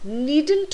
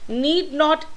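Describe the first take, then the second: First: It is said as one contracted word. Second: It is said as two separate full words.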